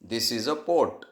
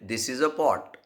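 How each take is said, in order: First: The vowel in the last word is closed. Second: The vowel in the last word is open. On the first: The object is a stomach. The speaker calls it wrong. "तो म्हटला" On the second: The object is a pot. The speaker calls it right. "सर म्हटले"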